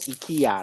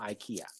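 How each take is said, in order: First: It is read like romanized Taiwanese syllables. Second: It is said with American English pronunciation.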